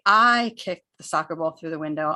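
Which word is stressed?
I. The word "I" is stressed and louder. The speaker, not someone else, did it. "I'm using stress and volume on the I"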